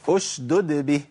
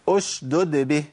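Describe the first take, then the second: No difference in how they are said.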